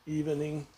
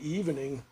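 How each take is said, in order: First: It is said with an extra middle syllable. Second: It is said with two syllables.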